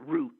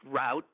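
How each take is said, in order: First: The word rhymes with 'boot'. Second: The word rhymes with 'out'. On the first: The speaker calls it right. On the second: The speaker calls it wrong.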